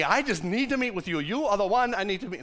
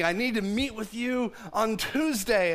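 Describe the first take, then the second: First: Badly faked English accent; wobbly mock-English accent; attempted English accent. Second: Said in the usual way. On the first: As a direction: try an English accent and miss, landing a bit Jamaican. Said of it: "it's not an English accent". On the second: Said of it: "so I just didn't quite work".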